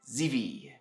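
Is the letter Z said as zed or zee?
zee. The letter Z is said as zee. This is the American way of saying it. The speaker calls it right. "I think Z V sounds easier to say"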